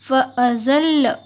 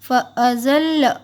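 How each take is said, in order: Both takes have the same delivery.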